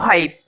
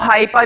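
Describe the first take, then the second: First: The word ends on the p, no final vowel. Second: The word ends with a vowel after the p. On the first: This is the speaker's own chosen way. "मैं बोलूंगा ए और ई silent" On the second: This is how some other people say it. "कुछ लोग इसको हाइपा भी बोलते हैं"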